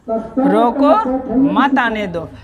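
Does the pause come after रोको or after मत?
after रोको. The pause comes after रोको.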